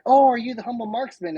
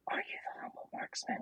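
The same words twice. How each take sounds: First: Re-enacted eager greeting, pitched high; higher-pitched, hopeful retold question. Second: Quick, whispered re-enacted question; hushed, hurried, afraid of being wrong; hesitant whisper. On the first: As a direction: ask brightly, as if recognizing someone. Retells mistakenly greeting a stranger. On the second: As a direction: sneak the question out under your breath. Retells hesitantly asking after earlier embarrassment.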